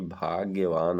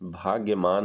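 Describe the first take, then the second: First: The third syllable starts with a v sound. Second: The third syllable starts with an m sound. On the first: The speaker calls it right. "होता है" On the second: The speaker calls it wrong. "नहीं होता"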